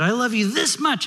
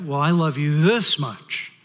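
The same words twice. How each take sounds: First: Put-on high-pitched little bunny child; little kid rabbit. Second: Lightly voiced father, slow and drawn out; daddy rabbit. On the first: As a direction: pipe up like a small child telling Dad. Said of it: "the little kid rabbit says to his dad". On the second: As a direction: top the child with a slow, stretched THIS. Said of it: "So the father says".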